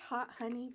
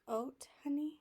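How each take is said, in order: First: The name is said the plain English way. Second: The name is said the French way. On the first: "I say hot honey" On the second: "that's the way you say it in French"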